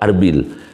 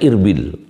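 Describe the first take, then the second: First: The name begins with an 'a' vowel. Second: The name begins with an 'i' vowel. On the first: The speaker calls it wrong. "tidak boleh dibaca Ar Arbil" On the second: The speaker calls it right. "harus dibaca Irbil"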